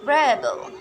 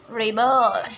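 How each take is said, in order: First: REBel as a noun, stress on REB; stress on first syllable. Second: ReBEL as a verb, stress on BEL; stress on second syllable. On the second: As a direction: hit the last syllable of rebel. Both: Shown as a demonstration. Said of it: "stress in the words".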